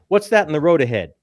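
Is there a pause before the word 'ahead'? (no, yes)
no. It is said as one unbroken question. "Means one thing"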